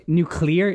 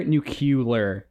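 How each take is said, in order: First: "nuclear" as NOO-klee-er; standard pronunciation. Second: "nuclear" as noo-KYOO-ler; mispronounced nuclear. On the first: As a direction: say "nuclear" with klee before the ending. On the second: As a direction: turn "nuclear" into "nucular". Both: Shown as a demonstration. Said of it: "instead of nuclear".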